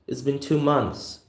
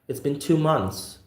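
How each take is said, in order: The two takes are said the same way.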